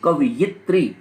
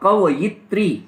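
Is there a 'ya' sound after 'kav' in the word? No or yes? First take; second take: yes; yes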